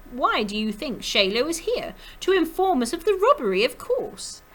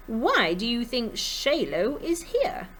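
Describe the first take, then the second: First: Put-on brisker, high French-accented question and answer; loud French accent climbing very high; musical French accent. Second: Put-on slow, careful French-accented question; higher, drawn-out French lilt; musical French accent. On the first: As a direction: lilt it confidently in a French accent. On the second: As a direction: try out a lilting French accent, slowly. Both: A narrator's reading. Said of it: "always sang in her musical French accent".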